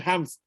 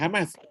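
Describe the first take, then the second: First: It is one syllable with no vowel before s. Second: It is two syllables with a vowel before s. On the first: The speaker calls it right. "kena hijab tu tu Hams" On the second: The speaker calls it wrong. "Tak boleh hijab Hamas"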